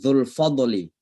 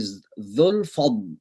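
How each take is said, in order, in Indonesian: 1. Bunyi d memantul dengan vokal gema. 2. Bunyi d berhenti bersih tanpa gema. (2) "tapi dzul fadl, ... jangan dikalkalahkan"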